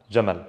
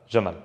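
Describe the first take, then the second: The two takes are said the same way.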